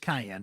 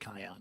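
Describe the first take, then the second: First: The name is said in its standard pronunciation. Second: The name is said with a regional accent. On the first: The speaker calls it right. "It's Cayenne, by the way" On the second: The speaker calls it wrong. "I say Kiyan. It's my accent coming through"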